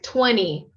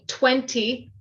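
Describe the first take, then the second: First: The t after the n is dropped. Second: The t after the n is clearly pronounced. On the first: "In a North American accent, ... more of an N sound" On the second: "in British English, you might hear a strong twenty"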